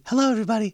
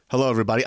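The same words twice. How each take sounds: First: High-pitched put-on greeting. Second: Said in the usual way. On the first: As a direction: switch up into a fake high voice. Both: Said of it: "kind of fixing his voice".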